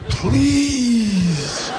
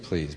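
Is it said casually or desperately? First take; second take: desperately; casually. First: It is said desperately, really pleading. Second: It is said casually, without pleading.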